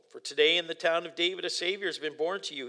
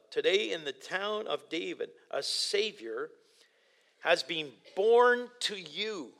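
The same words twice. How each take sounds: First: Said in the usual way. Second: "a Savior" and "has been born to you" drawn out slowly with pauses; slow, weighty key verse. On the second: Shown as a demonstration. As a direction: let each word of the key verse land, slowly. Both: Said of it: "that's the key verse".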